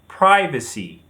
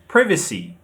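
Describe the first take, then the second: First: American pronunciation, stressed on the first syllable. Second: British pronunciation, stressed on the second syllable. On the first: "In American English, you say privacy. The stress is on the first syllable" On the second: "In British, we say privacy. The stress is on the second syllable"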